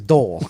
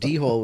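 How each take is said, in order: First: It is said as one syllable without an H. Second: It is said as two parts with an H sound. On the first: The speaker calls it right. "you don't pronounce the H, so it's a dole" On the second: The speaker calls it wrong. "the reason he was calling it D hole was because it's spelled D H O L E"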